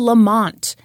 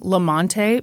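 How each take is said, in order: First: The name ends on a plain t sound. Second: The name ends with an added ee vowel. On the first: The speaker calls it right. "The E is silent" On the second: The speaker calls it wrong. "you know how I called him Lamonte McIntyre?"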